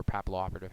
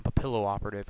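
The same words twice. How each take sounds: First: "Papillo" as PAP-uh-loh; alternative pronunciation. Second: "Papillo" as puh-PILL-oh; alternative pronunciation. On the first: Reviewer unsure of a card name, "Papillo" said PAP-uh-loh. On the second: Reviewer unsure of a card name, "Papillo" said puh-PILL-oh. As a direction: say "Papillo" with a short i in the middle. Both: Shown as a demonstration. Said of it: "however the heck you wanna say it".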